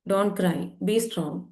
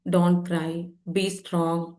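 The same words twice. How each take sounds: First: Very slow, each word of Don't cry, be strong drawn out; slow emphatic. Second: Said in the usual way. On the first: Retold or imitated. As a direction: spell the rule out word by word. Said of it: "പഠിപ്പിച്ചു കൊടുത്തിട്ടുണ്ട് അല്ലേ സമൂഹം?". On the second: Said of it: "പഠിച്ചു വെച്ചൊരു കാര്യമാണ്".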